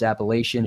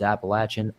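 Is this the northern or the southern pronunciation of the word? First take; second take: northern; southern. First: It is said with the northern pronunciation. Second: It is said with the southern pronunciation. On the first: The speaker is from the north. "If you're up north" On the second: The speaker is from the south. "If you're down south"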